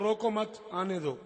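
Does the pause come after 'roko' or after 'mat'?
after mat. The pause comes after 'mat'.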